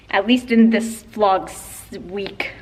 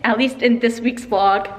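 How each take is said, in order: First: Slip of the tongue. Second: Said in the usual way. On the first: Real, not acted. Misspeaking while giving a friend a shout out. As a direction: trip over the words mid-sentence. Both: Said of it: "What am I saying?".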